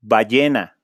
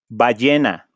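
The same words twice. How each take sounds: The two takes are said the same way.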